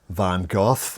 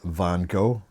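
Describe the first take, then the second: First: The name is said the British way. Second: The name is said the American way. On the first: "the British, uh, they pronounce it" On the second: "The Americans pronounce it"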